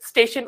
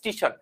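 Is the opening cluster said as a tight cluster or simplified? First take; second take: tight cluster; simplified. First: The opening consonant cluster is said intact. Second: The opening cluster is simplified with an added vowel. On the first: "আমরা অনেকে স্টেশন উচ্চারণ করতে পারি না" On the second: "আমরা বলছি স্টেশন"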